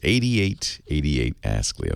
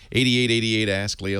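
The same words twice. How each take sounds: First: It is said slowly. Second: It is said fast.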